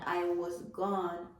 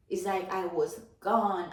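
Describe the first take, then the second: First: I was gone said slowly, each word weighed; repeated slowly for weight; slowed emphasis. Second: Said in the usual way. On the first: Real, not acted. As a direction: drag out I was gone to let it sink in.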